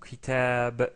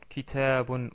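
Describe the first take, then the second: First: The word ends abruptly on the -b sound. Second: The word ends with an -un ending. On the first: The speaker stops on this word. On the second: The word is said within running speech.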